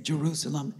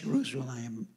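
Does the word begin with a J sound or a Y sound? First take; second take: J sound; Y sound. First: The word begins with a J sound. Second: The word begins with a Y sound. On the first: "we say" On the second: "the J is a Y sound"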